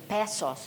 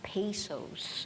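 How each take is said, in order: First: The word is said with a Filipino pronunciation. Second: The word is said with a non-Filipino pronunciation. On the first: This is how the real speaker says it. The speaker calls it right. "I'm Pinoy, so I say pesos" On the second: This is how the fake video said it. The speaker calls it wrong. "not pesos"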